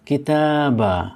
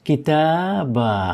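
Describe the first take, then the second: No difference in how they are said.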